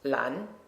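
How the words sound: It is said with a Chinese pronunciation. The speaker calls it right. "in Chinese, it's pronounced"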